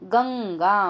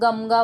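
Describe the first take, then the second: First: The nasal before g is an ng sound. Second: The nasal before g is an m sound. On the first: The speaker calls it right. "गंगा म्हणजे अंग अंग असतं" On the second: The speaker calls it wrong. "म प्रमाणे वाचलं तर गमगा वाचणार"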